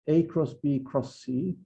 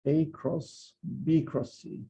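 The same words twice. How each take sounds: First: "A cross B" run together, then "cross C"; group "A cross B" as one unit before "cross C"; grouped A cross B first. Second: Slow "A cross", pause, then "B cross C" as one unit; grouped B cross C last. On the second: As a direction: hold off after "A cross" to group "B cross C". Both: Shown as a demonstration. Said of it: "is not the same thing as".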